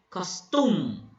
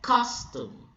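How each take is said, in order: First: The stress is on the second syllable. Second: The stress is on the first syllable. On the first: The speaker calls it wrong. "you do not say costume" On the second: The speaker calls it right. "The first syllable is being emphasized or is being stressed"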